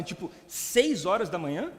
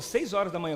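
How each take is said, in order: First: Slow, disbelieving echo with a rising end; incredulous question. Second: Said in the usual way. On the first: Retold or imitated. Questioning the pastor about the early start, incredulous. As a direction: draw it out as a baffled question.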